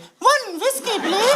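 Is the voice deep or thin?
thin. It is said in a thin, weak voice.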